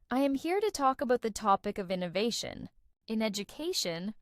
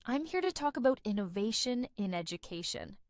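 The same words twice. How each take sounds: First: Careful, every word given weight in "I am here to talk about the topic of innovation"; evenly stressed words. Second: INNOVATION stands out, other words flow smoothly; stress on INNOVATION. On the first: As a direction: recite it word by word, slightly robotic. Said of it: "I sounded a little robotic". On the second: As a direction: let "innovation" pop and glide over the rest. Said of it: "Notice how innovation stands out". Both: Shown as a demonstration.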